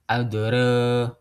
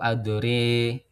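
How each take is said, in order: First: The a vowel is shifted only slightly toward e. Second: The a vowel is shifted strongly toward e. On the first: "Kalau imalah sugro atau biasa disebut dengan taklil itu adre" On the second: "Kalau imalah kubro atau imalah saja itu adre"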